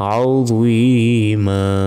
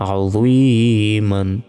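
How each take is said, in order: First: The word ends on a long vowel. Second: The word ends with an n sound. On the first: The reading stops at this word. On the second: The reading continues without stopping.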